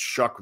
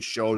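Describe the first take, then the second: First: The name ends in a k sound. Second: The name ends in a long vowel. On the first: The speaker calls it right. "but they actually it's Shuck" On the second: The speaker calls it wrong. "I always say Show"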